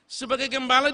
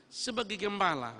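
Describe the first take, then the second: First: Higher and louder with a rising call on gembala; ringing pulpit refrain; full-force preaching. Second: Said in the usual way. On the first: Acted. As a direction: launch into the climax. Same phrase, loud preaching.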